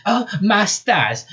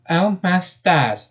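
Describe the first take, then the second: First: High, drawn-out southern squeal. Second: High, slow southern amazement; drawn-out amazed southern exclamation. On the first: Rabbit sees her robotic limbs, squealing. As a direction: squeal it in a freak-out. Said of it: "she squealed". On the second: Rabbit astonished at her punch, amazed. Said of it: "she said with a tone of amazement". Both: Acted.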